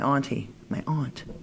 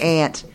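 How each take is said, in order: First: The word is said with an 'ah' vowel. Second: The word sounds like the insect 'ant'. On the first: The speaker calls it right. "my aunt. That's how we say it back home" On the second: The speaker calls it wrong. "It's not an aunt. An aunt is something that crawls on the ground"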